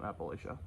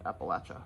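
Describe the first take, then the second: First: It is pronounced the way outsiders say it. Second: It is pronounced the way locals say it. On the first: This is how people from elsewhere say it. The speaker calls it wrong. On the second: This is how people from the region say it. The speaker calls it right. "That's how most people from that area pronounce it"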